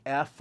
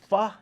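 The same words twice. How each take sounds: First: Said in the usual way. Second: F sounded out as "fuh". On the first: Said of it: "like F or P H". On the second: Shown as a demonstration. Memory coach teaching the sound for eight, F said "fuh". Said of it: "the F sound".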